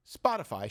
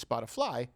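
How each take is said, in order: First: Said in the usual way. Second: Spotify said with "fly" as its ending; mimicked mispronunciation. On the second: Host mocking the press secretary's slip, Spotify said as "Spoti-fly". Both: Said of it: "she says Spotify".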